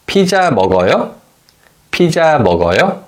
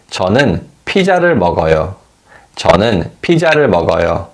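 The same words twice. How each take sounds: First: 피자 먹어요 with the pitch rising on 먹어요; 피자 먹어요 as a question, the final syllable going up. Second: 저는 피자를 먹어요 with the pitch falling on 먹어요; 저는 피자를 먹어요 said flat, then falling at the close; falling statement tone. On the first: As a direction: ask 피자 먹어요 with a clear lift at the end. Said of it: "the tone rises at the end of the question". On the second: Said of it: "the tone falls at the end of the statement". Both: Shown as a demonstration.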